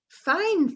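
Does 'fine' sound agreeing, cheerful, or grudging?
cheerful. It is said in a cheerful, well-feeling tone. The speaker feels well. "means I feel well"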